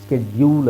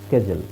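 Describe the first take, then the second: First: ಸ್ಕೆಡ್ಯೂಲ್ with a clear "dyool"; spelling mispronunciation. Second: ಸ್ಕೆಡ್ಯೂಲ್ with "jul" for dule, lower; J-sound pronunciation. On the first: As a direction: say ಸ್ಕೆಡ್ಯೂಲ್ as "sked-yool". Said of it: "ಸ್ಕೆಡ್ಯೂಲ್ ಅಲ್ಲ". (ಸ್ಕೆಡ್ಯೂಲ್ - ಡ್ಯೂಲ್ ಶಬ್ದದೊಂದಿಗೆ) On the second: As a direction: say ಸ್ಕೆಡ್ಯೂಲ್ as "skej-ul". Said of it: "pronounce ಮಾಡ್ಬೇಕಾಗಿರೋದು". (ಸ್ಕೆಡ್ಯೂಲ್ - ಡ್ಯೂ ಬದಲು ಜ) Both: Shown as a demonstration.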